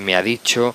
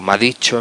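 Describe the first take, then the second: First: The words are said fully and separately. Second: The words are run together into one. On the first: It is the standard form. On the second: It marks a vulgar, nonstandard register.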